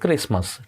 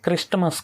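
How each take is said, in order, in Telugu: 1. s తర్వాత t శబ్దం వినిపించదు. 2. s తర్వాత t శబ్దం వినిపిస్తుంది. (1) "టీ అనేది సైలెంట్గా ఉంది" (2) "క్రిస్టమస్ కాదు"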